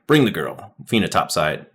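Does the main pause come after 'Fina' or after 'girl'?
after girl. The pause comes after 'girl', joining 'Fina topside'.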